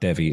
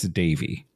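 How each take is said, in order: First: The first vowel sounds like 'eh', as spelled. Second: The first vowel sounds like 'ay', as in 'day'. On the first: The speaker calls it wrong. "it's not Devi" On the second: The speaker calls it right. "It's Davy"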